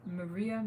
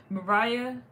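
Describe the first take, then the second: First: "Maria" with the middle as "ree"; trying another pronunciation. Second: "Mariah" with the middle as "rye", loud and high; trying a pronunciation. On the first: Streamer checks a viewer's name, "Maria" said muh-REE-uh. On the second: Streamer checks a viewer's name, "Mariah" said muh-RYE-uh. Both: Real, not acted.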